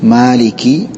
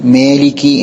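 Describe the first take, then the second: First: The first vowel is a clear open 'a' sound. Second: The first vowel is tilted toward an 'e' sound. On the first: The speaker calls it right. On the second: The speaker calls it wrong.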